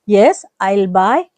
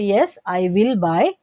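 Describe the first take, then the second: First: 'I will' is shortened into one syllable. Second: 'I will' is said as two full words.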